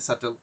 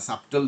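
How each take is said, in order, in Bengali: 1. b ধ্বনিটি সম্পূর্ণ বাদ যায়। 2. মাঝখানে b ধ্বনিটি উচ্চারিত হয়। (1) "এটা প্রনাউন্সিয়েশন যে সাটেল, এটা যে বিটা সাইলেন্ট" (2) "সাবটেল যদি বলে আপনার কাছে সহজ লাগে"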